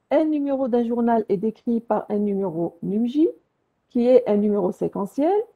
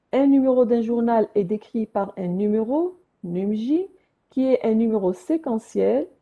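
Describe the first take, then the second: The two takes are said the same way.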